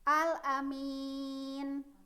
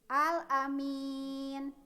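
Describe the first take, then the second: First: The word ends on a consonant, vowel dropped. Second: The same.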